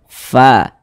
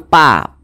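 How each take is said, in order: First: The first sound has air flowing audibly. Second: The first sound is a stop without airflow. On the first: The speaker calls it right. "tapi ada udara yang mengalir" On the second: The speaker calls it wrong. "Jangan pa"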